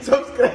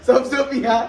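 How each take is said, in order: First: The word is clearly pronounced as 'subscribe'. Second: The word comes out garbled as 'sabso piya'. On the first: The speaker calls it right. "સબસ્ક્રાઇબ ની જગ્યાએ" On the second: The speaker calls it wrong. "Problem છે"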